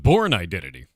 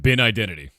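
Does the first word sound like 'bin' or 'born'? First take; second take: born; bin. First: The first word sounds like 'born'. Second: The first word sounds like 'bin'. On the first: This is how the speaker's own country says it. "for us, that's the born identity" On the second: This is how Australians say it. "you're saying it's called"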